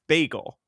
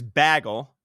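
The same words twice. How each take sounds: First: The first vowel is a long a. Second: The first vowel is a short a. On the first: "B A G E L, which is the right thing" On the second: "B A G G L E"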